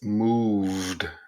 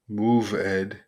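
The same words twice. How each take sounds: First: The ending joins the V with no extra syllable. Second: The ending is an extra separate syllable. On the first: The speaker calls it right. "you have to pronounce that V with the T sound" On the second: The speaker calls it wrong. "It's not moved"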